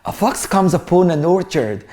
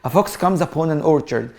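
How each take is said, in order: The two takes are said the same way.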